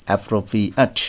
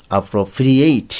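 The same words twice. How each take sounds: First: অ্যাপ্রোপ্রিয়েট ending in a short আট; adjective pronunciation. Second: অ্যাপ্রোপ্রিয়েট ending in এইট; verb pronunciation. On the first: Teacher contrasting adjective with the verb, says আট. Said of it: "একটি adjective এবং আরেকটি verb". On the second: Teacher contrasting verb and adjective, says এইট. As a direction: verb form, end with এইট. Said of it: "verb হবে তখন হবে এইট". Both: Shown as a demonstration.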